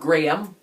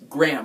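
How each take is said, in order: First: The name is said as two syllables. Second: The name is said as one syllable. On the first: The speaker calls it wrong. "not Graham. Everyone thinks Graham" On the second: The speaker calls it right. "like a gram of"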